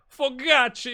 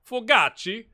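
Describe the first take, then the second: First: Fogacci rolled with an r-colored first vowel, high, loud and falling; proper Fogacci. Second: Fogacci said high and loud with a rising end. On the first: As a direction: say Fogacci with flair like a commentator. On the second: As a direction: announce Fogacci with a lift at the end. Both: Shown as a demonstration. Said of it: "You gotta say it like that".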